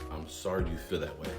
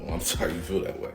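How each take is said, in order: First: It is said in a neutral tone. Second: It is said in a scary, menacing tone.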